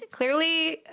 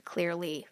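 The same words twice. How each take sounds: First: Clearly said higher and louder; emphatic. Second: Dry whispered clearly; whispered aside. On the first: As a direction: burst out with a laughing Clearly. Loud repeat after laugh. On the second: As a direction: murmur it as a wry aside. Whispered aside about resting. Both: Real, not acted.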